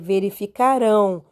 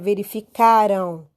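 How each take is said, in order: First: The stress is on the last syllable. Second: The stress is on the second-to-last syllable. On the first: The speaker calls it right. "o rão é a sílaba forte" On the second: The speaker calls it wrong. "você não pode dizer que é verificaram"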